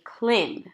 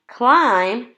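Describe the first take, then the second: First: The vowel is short, like in "him". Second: The vowel is long, like in "eye". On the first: The speaker calls it wrong. "if I use the short vowel sound, eh, it doesn't make sense" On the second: The speaker calls it right. "if we use the long vowel sound, I"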